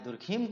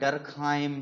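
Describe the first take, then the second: First: The name ends with a 'keem' sound. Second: The name ends with a 'kaim' sound.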